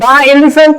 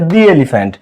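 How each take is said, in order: First: 'The' is pronounced with a short 'uh' vowel. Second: 'The' is pronounced with a long 'ee' vowel. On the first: The speaker calls it wrong. "দা elephant নাকি" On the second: The speaker calls it right. "উচ্চারণটা হচ্ছে দি elephant"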